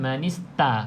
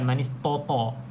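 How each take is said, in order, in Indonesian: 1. Bunyi t itu tipis dan ringan. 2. Bunyi t itu tebal dan berat. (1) "Jadi ta nipiskan"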